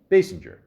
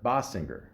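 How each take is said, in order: First: The first syllable does not sound like 'boss'. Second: The first syllable sounds like 'boss'. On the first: The speaker calls it right. "Basinger. My apologies" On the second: The speaker calls it wrong. "It's not Bossinger"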